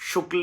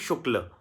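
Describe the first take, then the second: First: It ends abruptly with no extra vowel. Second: It ends with a faint extra vowel sound. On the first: The speaker calls it wrong. "शुक्ल नहीं" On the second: The speaker calls it right. "थोड़ा सा फालतू sound"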